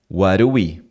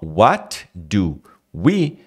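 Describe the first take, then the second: First: The words are reduced and run together. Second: Each word is said fully and separately.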